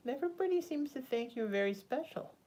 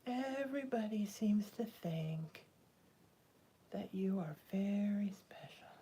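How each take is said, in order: First: Said in the usual way. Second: Slow, soft whisper to her pet; whispering to a cat. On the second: Real, not acted. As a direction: breathe it to the cat, slowly. Told to her cat twice.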